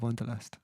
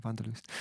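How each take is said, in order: First: Said in the usual way. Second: Wanderlust with a German V and "oo" in the last syllable; German pronunciation. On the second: Shown as a demonstration. Streamer repeats the song's name in German, German pronunciation of Wanderlust. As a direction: pronounce Wanderlust as "VAHN-der-loost". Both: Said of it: "or in German".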